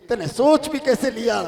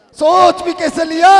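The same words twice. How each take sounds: First: Said in the usual way. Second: सोच भी कैसे लिया thrown out higher and louder; scornful shout. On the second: Acted. Elder scolds Bahubali for fighting his brother, shouting. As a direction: hurl लिया up as an outraged question. Rebuke then repeated louder.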